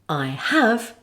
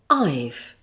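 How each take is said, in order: First: Both words are said in full. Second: The words are squeezed into one contracted syllable.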